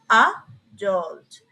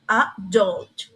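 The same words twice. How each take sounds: First: The stress is on the first syllable. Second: The stress is on the last syllable. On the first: "In British" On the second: "in American English, the stress is in the end of the syllable"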